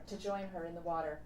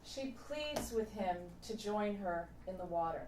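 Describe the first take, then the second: First: Quick echo. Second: Said in the usual way. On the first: Shown as a demonstration. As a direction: toss the echo off quickly, like an afterthought.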